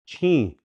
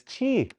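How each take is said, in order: First: Chi with a nasalized vowel; nasal ending. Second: Chi with a pure oral vowel; no nasal. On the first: Showing learners what the N does, nasal chi. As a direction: let the i in chi go through the nose. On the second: Showing chi with the N removed, oral vowel. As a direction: keep the i in chi out of the nose. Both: Shown as a demonstration. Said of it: "If I take rid of that".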